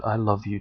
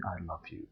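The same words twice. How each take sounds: First: Said in the usual way. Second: Soft tender "I love you". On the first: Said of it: "by the time you've said". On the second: Shown as a demonstration. Practicing saying it to everyone, softly and tenderly. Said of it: "practicing saying".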